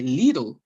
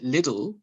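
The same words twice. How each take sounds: First: The name is said with a German pronunciation. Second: The name is said with a British pronunciation. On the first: "in Germany, they'd say Lidl" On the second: "in the U K, they pronounce it Lidl"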